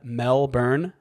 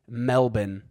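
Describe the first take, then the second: First: It is said with an American pronunciation. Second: It is said with an Australian pronunciation. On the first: The speaker calls it wrong. "Americans call Melbourne, Australia" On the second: The speaker calls it right. "It's actually Melbourne"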